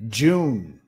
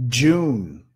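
No difference in how they are said.

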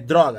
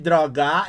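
First: The stress is on the first syllable. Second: The stress is on the second syllable. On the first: "a primeira sílaba tônica da palavra droga é dro" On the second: "ele colocou a sílaba tônica em drogar"

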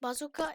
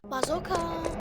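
First: The word is pronounced with Turkish sounds. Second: The word is pronounced with English sounds. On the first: "Türkçe okunuş" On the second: "Adamlar İngilizce"

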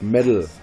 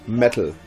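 First: The middle consonant is a soft d. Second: The middle consonant is a crisp t. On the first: This is the trademark of the haters. The speaker calls it wrong. "Und nicht Metal. Das ist ein Unterschied" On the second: This is the speaker's own trademark. The speaker calls it right. "Mein Markenzeichen ist Metal"

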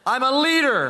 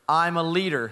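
First: It is said with strong passion and energy. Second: It is said calmly, without much passion.

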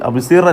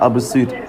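First: The R is pronounced thin and light. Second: The R is pronounced full and heavy. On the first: The speaker calls it wrong. "അബ്സിർ അല്ല" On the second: The speaker calls it right. "ഇവിടെ തെറക്കീക്കാക്കാൻ പാടില്ല"

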